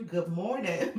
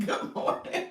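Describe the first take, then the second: First: Said in the usual way. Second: Good morning through a giggle; laughing greeting. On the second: Real, not acted. Laughs while greeting viewers.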